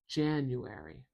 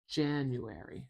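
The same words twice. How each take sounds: First: The stress is on the first syllable. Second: The same.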